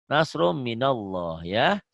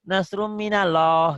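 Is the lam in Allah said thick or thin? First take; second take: thick; thin. First: The lam in Allah sounds thick, almost w-like. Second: The lam in Allah sounds thin and light. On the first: The speaker calls it right. "seperti ada W-nya" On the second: The speaker calls it wrong.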